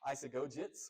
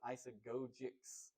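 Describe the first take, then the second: First: The word ends with a 'ts' sound. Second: The word ends with a 'ks' sound. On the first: The speaker calls it wrong. "with a T" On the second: The speaker calls it right. "with a C S"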